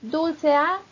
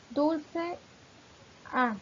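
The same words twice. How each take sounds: First: "dulce A" run together as one unit, loud and rising; "dulce A" in one connected breath, punched louder; joined as synalepha. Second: "Dulce A" split by a clear pause; "Dulce" and "A" as two detached pieces; vowels shown separately. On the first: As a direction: link "dulce A" without a break between the vowels. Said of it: "se forma una sílaba". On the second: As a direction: say "Dulce", stop, then a lone "A". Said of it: "termina en vocal, inicia en vocal". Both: Shown as a demonstration.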